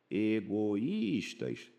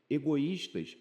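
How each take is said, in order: First: Egoístas very slow, each syllable apart, í held; drawn-out syllables. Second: Said in the usual way. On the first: Shown as a demonstration. Teacher showing the hiatus in a word to students, drawn out. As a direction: pull Egoístas apart slowly so the hiatus shows. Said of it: "regra dos hiatos". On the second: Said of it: "egoístas é regra dos hiatos".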